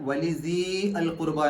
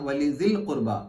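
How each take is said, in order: First: The vowel of 'dhi' is held long. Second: The vowel of 'dhi' is short, linked on. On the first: The speaker calls it wrong. "എന്നല്ല" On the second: The speaker calls it right. "അവിടെ സീ എന്നുള്ള നീട്ടൽ നഷ്ടപ്പെടും"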